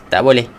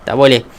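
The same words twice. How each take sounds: No difference in how they are said.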